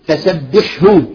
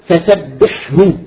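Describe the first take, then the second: No difference in how they are said.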